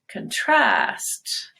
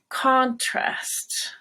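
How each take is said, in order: First: The stress is on the second syllable. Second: The stress is on the first syllable. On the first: It is the verb. "you want to go high on trast and then glide a little bit" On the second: It is the noun. "The noun contrast"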